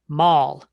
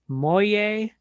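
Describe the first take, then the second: First: The word sounds like mall. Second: The word sounds like moye.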